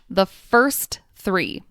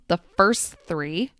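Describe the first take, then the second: First: The final T of first is pronounced. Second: The final T of first is dropped. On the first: "I enunciated each word" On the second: "The final T sound at the end of first disappears"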